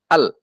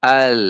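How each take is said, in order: First: "al" cut short on the l; wrongly held. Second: "al" with a lingering l that fades; half-flowing sound. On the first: Teacher shows what to avoid, "al" chopped off. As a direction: stop the l of "al" dead. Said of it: "Jangan al". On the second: Teacher gives the right way, "al" trailing off on the l. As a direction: draw out the l of "al" a little. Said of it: "Tapi al". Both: Shown as a demonstration.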